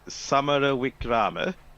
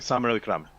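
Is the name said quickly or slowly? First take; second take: slowly; quickly. First: The name is said slowly and carefully. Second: The name is said quickly in one run.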